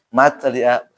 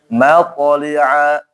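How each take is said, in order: First: The q sound bounces but is light and thin. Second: The q sound bounces and is heavy and thick. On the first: The speaker calls it wrong. "mantul tapi tipis" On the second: The speaker calls it right. "Maka harus gabung nih"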